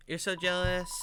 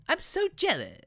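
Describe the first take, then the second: First: Put-on toned-down kid monster character. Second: High, exaggerated cartoon voice; wrong character voice. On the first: Kid monster envying the listener, in a toned-down character voice. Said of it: "need to have a different accent for this character". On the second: Kid monster envying the listener, in a high cartoon voice. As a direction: slip into a high-pitched theatrical character. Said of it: "please stop using Paris accent".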